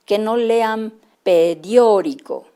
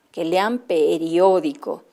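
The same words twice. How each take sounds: First: Put-on periódico read slowly and haltingly, syllable by syllable, as a struggling child would; halting choppy reading. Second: Said in the usual way. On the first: Shown as a demonstration. Teacher demonstrates the wrong, choppy way to read, slowly. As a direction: stumble through periódico slowly, broken up.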